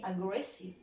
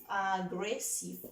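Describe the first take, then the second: First: Said in the usual way. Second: AGGRESSIVE slowly split into three beats, a-gres-sive; syllable by syllable. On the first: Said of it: "¿Cuántas sílabas tiene". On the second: Shown as a demonstration. Teacher counting syllables of aggressive for the class, syllable by syllable. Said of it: "three, really?".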